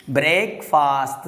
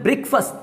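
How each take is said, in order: First: ब्रेकफास्ट slowly as brake-faast, two long vowels; wrong pronunciation. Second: ब्रेकफास्ट as BRIK-fust, short vowels; correct pronunciation. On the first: Teacher shows the common mistake, slow brake-faast. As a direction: draw out ay and aa in ब्रेकफास्ट. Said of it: "ब्रेकफास्ट नहीं होता है". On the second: Teacher models the right sound for learners, short BRIK-fust. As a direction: say ब्रेकफास्ट quick-vowelled, brik-fus with light ending. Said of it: "इसको बोलना है". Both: Shown as a demonstration.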